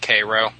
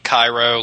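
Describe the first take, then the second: First: The name is said the Ohio local way. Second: The name sounds like the Egyptian city. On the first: This is how the Ohio town says it. "but they pronounce it Cairo" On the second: This is the city in Egypt. "It's spelled Cairo, like Egypt"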